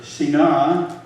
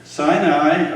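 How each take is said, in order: First: Sinai said see-NAH, drawn out; slow see-NAH for Sinai; alternative pronunciation. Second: Sinai said SIGH-nigh; both syllables of Sinai rhyme with "eye"; English pronunciation. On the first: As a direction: say Sinai with an ee, then an open ah. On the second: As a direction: say Sinai the English way, with long i sounds. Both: Shown as a demonstration. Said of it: "or Sinai".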